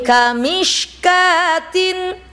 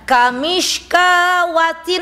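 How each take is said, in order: First: It is said with no w sound inside. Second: It is said with a w sound inside. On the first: The speaker calls it right. "waw juga dianggap tidak ada" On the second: The speaker calls it wrong. "Jadi bukan kamishkawatin, enggak ada itu wawnya"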